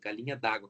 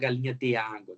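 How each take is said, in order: First: The 'de' merges into the following vowel. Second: The 'de' is a separate full syllable. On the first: The speaker calls it right. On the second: The speaker calls it wrong. "a gente não fala galinha de água"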